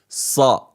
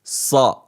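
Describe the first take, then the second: First: The s sound is heavy and strong. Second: The s sound is heavy and strong.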